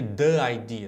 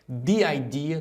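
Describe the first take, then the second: First: 'The' is said with a short uh vowel. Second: 'The' is said with a long ee vowel. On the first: The speaker calls it wrong. "do que the idea" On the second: The speaker calls it right. "é muito mais fácil pronunciar the idea"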